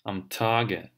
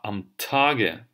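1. t произносится с придыханием. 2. t произносится с придыханием.

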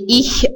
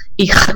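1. Ch — мягкий, передний шипящий звук. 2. Ch — жёсткий, гортанный звук. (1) "Не их, а немцы" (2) "швейцарцы говорят, да, а их, и вот такой прямо глухой ха, ахлаут"

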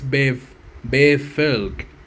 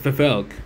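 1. La palabra empieza con un sonido b. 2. La palabra empieza con un sonido parecido a f. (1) "pero es B" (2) "Digo la fe como si es"

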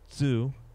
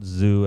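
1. Das Wort beginnt mit einem ts-Laut. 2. Das Wort beginnt mit einem z-Laut. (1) "Entschuldigung, zu" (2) "Not zoo, as in I go to the zoo in America or England"

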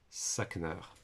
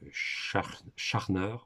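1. Le nom se prononce à l'anglaise. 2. Le nom se prononce à l'allemande. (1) "à l'anglaise" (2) "à l'allemande"

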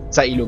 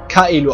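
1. Der Name beginnt mit einem Ts-Laut. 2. Der Name beginnt mit einem harten K-Laut. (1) "mit Z Zaelo genannt" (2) "haben wir alle es Kaelo ausgesprochen"

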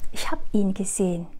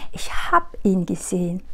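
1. Động từ được rút gọn thành hab. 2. Động từ được rút gọn thành hab.

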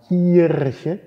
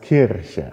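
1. Der erste Vokal ist ein geschlossenes, gespanntes i. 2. Der erste Vokal ist ein offenes, ungespanntes i. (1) "man sagt nicht Kirche" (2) "sondern es heißt Kirche"

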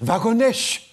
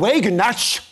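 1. Der Name wird französisch ausgesprochen. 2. Der Name wird amerikanisch ausgesprochen. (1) "Und die Franzosen Wagonnecht" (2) "die Amerikaner sagen Wagenknecht"

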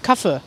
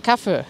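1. Der letzte Vokal ist kurz. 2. Der letzte Vokal ist kurz.

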